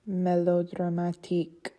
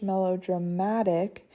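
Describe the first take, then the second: First: "melodramatique" stressed on the final "tique"; French "melodramatique", weight on the last syllable. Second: "melodramatic" stressed on the MA; English "melodramatic", MA leaning out. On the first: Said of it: "stress is on the last syllable". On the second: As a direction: punch the second-to-last syllable of "melodramatic". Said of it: "the stress is on the M A". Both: Shown as a demonstration.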